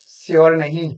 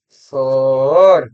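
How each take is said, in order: First: "श्योर" said with a plain s as "siyor", marked wrong; "श्योर" with s, not sh; wrong take. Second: Teacher modelling "श्योर" slowly; correct pronunciation. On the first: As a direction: say "श्योर" as "siyor" to show the error. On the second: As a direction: stretch "श्योर" slowly, sh sound. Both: Shown as a demonstration.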